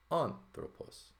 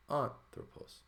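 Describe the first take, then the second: First: "anthropos" sung high and slow, tone rising on "thro" and falling off; pitch accent demo. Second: "Anthropos" breathed high on the accent, then falling; whispered accent demo. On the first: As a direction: draw out "anthropos", lift the accented syllable up high. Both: Shown as a demonstration. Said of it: "the tone is up".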